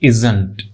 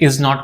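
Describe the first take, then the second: First: It is said as one short contracted word. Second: It is said as two full separate words.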